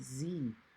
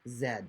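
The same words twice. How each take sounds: First: The letter is said the American way, 'zee'. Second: The letter is said the Canadian way, 'zed'.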